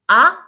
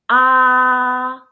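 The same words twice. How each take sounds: First: The pitch rises from lower to higher. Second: The pitch stays level and steady throughout. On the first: "the second tone... so rising your tone" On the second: "the first tone we pronounce ah... it's flat and straight"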